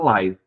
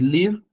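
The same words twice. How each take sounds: First: The vowel is a different, non-'i' sound. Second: The vowel is a plain 'i' sound. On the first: It means a live broadcast. "o som dela é completamente diferente" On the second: It is the verb meaning to live. "a vogal i tem som praticamente igual ao nosso"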